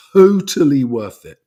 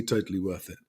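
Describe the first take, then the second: First: "totally worth it" said loud and slow, stress on "totally"; emphatic. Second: "totally worth it" said softly and lower, trailing off; quiet echo. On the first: Vlogger telling viewers the seaplane rating paid off, loud and emphatic. Emphatic verdict then echoed. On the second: Vlogger repeating the verdict to himself, quiet and low. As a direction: drop "totally worth it" to a soft aside. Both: Real, not acted.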